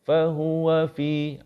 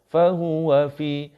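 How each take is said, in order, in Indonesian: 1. Suku kata 'wa' pendek dan halus. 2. Suku kata 'wa' pendek dan halus.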